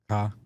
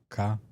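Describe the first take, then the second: First: It is said in a Chicago accent. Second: It is said in a Chicago accent.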